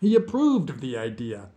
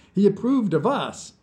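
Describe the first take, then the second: First: Said in the usual way. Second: "us" punched, high and loud; louder, higher line landing on "us"; stress on us. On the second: A narrator's reading. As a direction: hit the word "us" hard at the end. Repeats, correcting idea to us.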